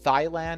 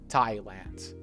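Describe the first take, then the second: First: The word starts with a th sound. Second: The word starts with a clear t sound. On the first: The speaker calls it wrong. "it's not Thailand" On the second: The speaker calls it right. "with a strong, clear t sound"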